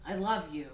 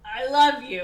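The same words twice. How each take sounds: First: Said in the usual way. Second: Much louder, higher mock declaration; emphatic declaration. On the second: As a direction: blurt it out insistently, hammed up. Repeats declaration, having nothing more.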